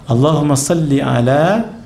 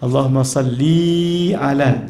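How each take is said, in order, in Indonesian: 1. Vokal setelah 'll' tetap pendek. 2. Vokal setelah 'll' dipanjangkan. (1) "tanpa dipanjangkan li tu, tu yang betul" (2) "jangan baca Allahumma salli ala. Jangan"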